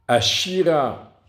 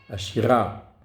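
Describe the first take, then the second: First: The stress is on the syllable shi. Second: The stress is on the syllable ra. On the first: I will sing. "l'accent tonique, il est sur le shin" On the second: This song. "l'accent tonique, il est sur le resh"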